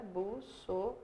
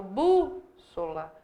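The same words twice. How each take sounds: First: "Bússola" in softly spoken separate syllables: bus, so, la; separação silábica. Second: "bússola" with a long, strong BÚ; tônica destacada. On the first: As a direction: break "Bússola" up syllable by syllable, quietly. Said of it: "eu separo a sílaba". ("Bússola" silabado baixinho, com pausas: bus-so-la) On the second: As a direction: punch and hold the first syllable of "bússola", then a short gap. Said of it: "a tônica tá aqui". ("bússola" com BÚ forte e alongado) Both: Shown as a demonstration.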